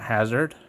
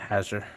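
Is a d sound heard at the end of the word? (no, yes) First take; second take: yes; no. First: The word ends with a d sound. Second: The word ends without a d sound. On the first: The speaker calls it wrong. "not hazard" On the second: The speaker calls it right. "because it doesn't have a D in it"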